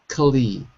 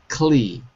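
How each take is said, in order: Both takes have the same delivery.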